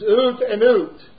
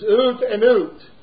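First: The phrase is said in a Scottish accent. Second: The phrase is said in a Scottish accent.

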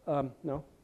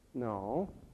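First: It is hesitant, with a pause before no. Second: It is said immediately, without any pause.

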